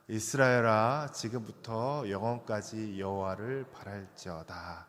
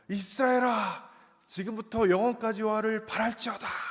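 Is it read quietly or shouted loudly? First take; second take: quietly; loudly. First: It is read calmly and quietly. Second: It is shouted loudly with excitement.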